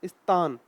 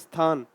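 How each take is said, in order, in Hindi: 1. यह शब्द फ़ारसी उच्चारण से बोला गया है। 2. यह शब्द हिंदी उच्चारण से बोला गया है। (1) "स्थान को क्या बोलते थे" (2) "अपने यहाँ बोलते स्थान"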